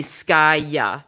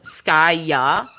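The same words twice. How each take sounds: First: "Skaya" with a firmer final ah; French pronunciation. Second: "Skaya" with a slack, drawn-out final ah; English pronunciation. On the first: Contrasting French with English for viewers, French-style "Skaya". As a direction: say "Skaya" the French way, last ah less relaxed. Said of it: "in French, it's gonna be". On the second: Contrasting English with French for viewers, English-style "Skaya". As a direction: loosen the jaw on the last ah of "Skaya". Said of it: "the tone kind of goes downwards on the ah". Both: Shown as a demonstration.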